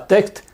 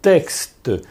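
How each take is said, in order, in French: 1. Le mot se termine brusquement, sans voyelle finale. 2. Le mot se termine par un son vocalique final bref. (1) "C'est pas tect" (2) "c'est texte"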